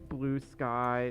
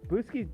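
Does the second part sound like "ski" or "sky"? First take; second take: sky; ski. First: The second part ends with an "eye" sound. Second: The second part ends with an "ee" sound. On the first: The speaker calls it right. "I know it's blue sky" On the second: The speaker calls it wrong. "Blueski does sound more for I"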